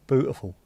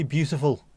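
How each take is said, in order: First: Norfolk "Beautiful", said as "bootiful"; Norfolk accent. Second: Said in the usual way. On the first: Shown as a demonstration. Guessing what got laughed at, "Beautiful" as Norfolk "bootiful". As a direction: drop the y-glide in "Beautiful" for a Norfolk sound. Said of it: "and it came out Norfolk". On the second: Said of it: "if you were trying to say beautiful".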